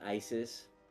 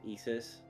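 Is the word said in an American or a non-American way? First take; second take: American; non-American. First: The word has an American pronunciation. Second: The word has a non-American pronunciation. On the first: It names the militant group. "which is the American way of saying it" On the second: It names the Egyptian goddess. "the pronunciation of the goddess is actually Isis"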